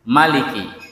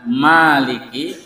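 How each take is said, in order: First: The first vowel is kept short. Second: The first vowel is drawn out long. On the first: "ada yang membaca maliki ya pendek" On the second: "ada yang membaca maliki panjang"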